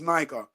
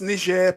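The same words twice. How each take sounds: First: The name is said the usual English way. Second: The name is said the original, non-English way. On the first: "in English that'll be said, pronounced as Niger" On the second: "It's pronounced Niger"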